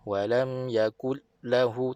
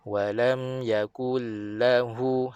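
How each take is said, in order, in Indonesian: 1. Suara terputus pada konsonan rangkap. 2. Suara mengalir terus-menerus melewati konsonan rangkap. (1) "tak nak, tu putus suara" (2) "Kita nak suara mengalir sedikit. ... gitu"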